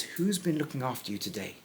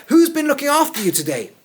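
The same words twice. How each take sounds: First: Quiet retelling. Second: Much higher and louder, astonished; excited question. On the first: Retold or imitated. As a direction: say it back calmly and softly. Naomi's question quietly retold. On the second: Acted. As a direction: demand it in sheer amazement. Naomi's question acted out.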